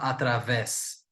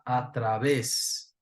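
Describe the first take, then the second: First: The middle consonant is a buzzing V sound. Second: The middle consonant sounds like a B. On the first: The speaker calls it wrong. "Não vou falar através" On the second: The speaker calls it right. "eu vou falar através"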